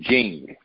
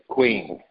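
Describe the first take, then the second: First: The word begins with a 'j' sound. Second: The word begins with a 'kw' sound. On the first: "It's Q, I-N-G, but you pronounce it Jing" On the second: "We pronounce it queen"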